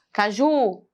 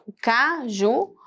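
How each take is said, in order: First: Caju with a slow, stretched JU; ca-JUUU, drawn out; stress on last syllable. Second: Caju with a slow, stretched CA; CAAA-ju, drawn out; stress on first syllable. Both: Shown as a demonstration. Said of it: "Qual é o mais forte?".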